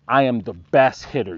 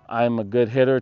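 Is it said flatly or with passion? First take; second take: with passion; flatly. First: It is said with passion and emotion. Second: It is said flatly, without emotion.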